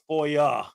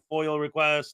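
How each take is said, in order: First: The word ends in an open 'ah' vowel. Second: The word ends in an 'l' sound. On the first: The speaker calls it right. "it's F O I A, FOIA" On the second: The speaker calls it wrong. "like foil, like aluminum foil"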